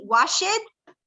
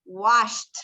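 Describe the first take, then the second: First: "wash it" with an extra vowel, wash-et; wrong wash it. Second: "washed." said as one syllable, ending in a crisp t; correct washed. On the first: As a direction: say "wash it" as two syllables, wrong way. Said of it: "en vez de decir wash it". ("wash it" pronunciado con la e, forma incorrecta) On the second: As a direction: clip "washed." short, ending in t. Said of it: "en vez de decir". ("washed." de una sílaba, terminado en t) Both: Shown as a demonstration.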